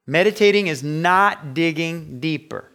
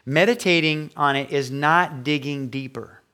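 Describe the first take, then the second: First: Meditating stressed and louder; emphatic repeat. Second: Said in the usual way. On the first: Shown as a demonstration. Pastor correcting the congregation, emphatic. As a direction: punch Meditating again. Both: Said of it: "let me explain meditate".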